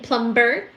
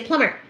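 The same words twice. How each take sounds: First: The b sound in the middle is pronounced. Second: The b sound in the middle is silent. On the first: "I like to say the sound. The letter B in plumber" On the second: "you're supposed to say plumber"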